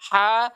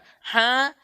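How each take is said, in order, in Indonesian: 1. Bunyinya tidak ada udara yang keluar lewat hidung. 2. Bunyinya ada udara yang keluar lewat hidung. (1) "tidak ada reaksi di hidung" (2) "kesalahannya biasanya eh, di kita kasih keluar di hidung"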